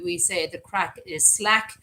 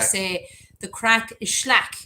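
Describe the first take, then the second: First: It is said in the speaker's ordinary accent. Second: It is said in a West of Ireland accent.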